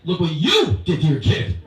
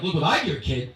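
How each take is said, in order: First: Slow, loud, leaning hard on you; stress on you. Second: Said in the usual way. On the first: Retold or imitated. Photographer snapping back at mother, stress on you. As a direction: Look what you did, weighting you. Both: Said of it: "I'm like".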